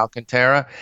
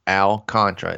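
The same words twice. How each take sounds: First: Alcantara said as al-can-TERR-a; cute pronunciation of Alcantara. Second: Alcantara said like al-CON-tra; three syllables in Alcantara, stress on CON; shorter pronunciation of Alcantara. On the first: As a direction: switch Alcantara to four syllables with TERR stressed. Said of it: "switches it up just to be cute and says". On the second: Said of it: "that's how I've said it". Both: Shown as a demonstration.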